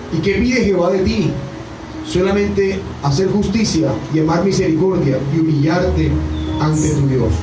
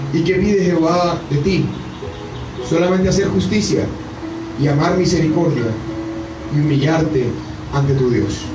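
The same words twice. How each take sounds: No difference in how they are said.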